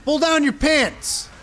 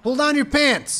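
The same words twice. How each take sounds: First: Slow, high and loud stretched yell; mock rallying bellow; drawn-out shout. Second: High, loud snapped yell at normal pace; punchy repeated yell; quick shout. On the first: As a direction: drag the shout out for hype. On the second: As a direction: fire it off straight. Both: Real, not acted. Hype yelling at healer.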